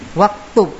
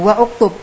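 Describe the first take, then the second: First: The connecting vowel is dropped, giving 'waktub'. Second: The connecting vowel is pronounced, giving 'wa-uktub'. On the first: The speaker calls it right. "Ngucapnya apa? Waktub" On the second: The speaker calls it wrong. "Kalau wa'uktub salah"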